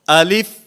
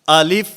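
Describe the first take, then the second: The two takes are said the same way.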